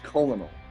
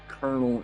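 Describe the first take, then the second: First: The word is pronounced exactly as it is spelled. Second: The word is not pronounced as it is spelled. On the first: "you see how it's spelled? It's colonel" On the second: "they pronounce it like Colonel"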